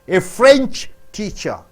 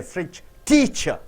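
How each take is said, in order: First: The stress is on the word French. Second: The stress is on the word teacher. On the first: The teacher teaches the French language. "You're stressing on French first" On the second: The teacher comes from France. "when you stress on teacher"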